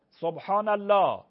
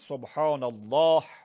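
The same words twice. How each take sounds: First: The word ends in 'la' with no h sound. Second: The word ends with an audible final h sound. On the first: The speaker calls it wrong. "لا بگید سبحان الله ... این غلطه" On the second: The speaker calls it right. "وقفش میکنی سبحان الله، هش حتما باید تلفظ بشه"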